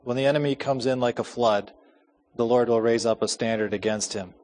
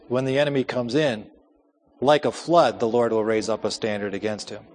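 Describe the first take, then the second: First: The pause comes after 'like a flood'. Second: The pause comes before 'like a flood'.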